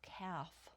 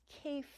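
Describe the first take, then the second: First: The vowel sounds like the one in 'calf'. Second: The vowel sounds like the one in 'safe'. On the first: The speaker calls it wrong. "not calf" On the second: The speaker calls it right. "it is in fact pronounced Kaif"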